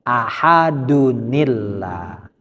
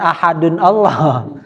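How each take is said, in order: First: The words are joined by an added 'ni' sound. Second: The two words are said apart without linking. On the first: The speaker calls it right. "caranya ahadunillah" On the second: The speaker calls it wrong. "Bukan ahadun Allah"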